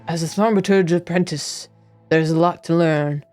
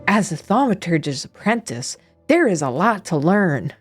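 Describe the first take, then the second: First: It is read in a plain, normal narrating voice. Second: It is read in an exaggerated, over-enunciated storybook voice.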